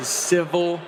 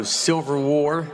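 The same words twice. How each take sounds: First: Said in the usual way. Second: "Silver War" said for civil war, with a clear S and an L; mispronounced civil. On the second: Shown as a demonstration. Comic telling his own mispronunciation, "Silver War". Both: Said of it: "that's how I say it".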